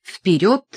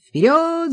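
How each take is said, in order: First: Said in the usual way. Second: High, loud battle cry of Вперёд; the lieutenant yells Вперёд to charge; cavalry lieutenant rallying the troops with a loud high Вперёд; cavalry shout. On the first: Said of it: "Глава пятнадцатая". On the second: A narrator's reading. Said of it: "закричал лейтенант кавалерии".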